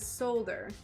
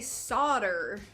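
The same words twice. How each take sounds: First: It is said with a non-American pronunciation. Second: It is said with an American pronunciation. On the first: "everywhere else says solder" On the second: "Americans say solder"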